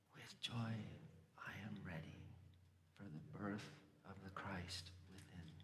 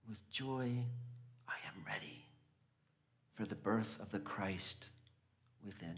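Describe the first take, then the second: First: It is spoken softly and quietly. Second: It is spoken at a normal volume.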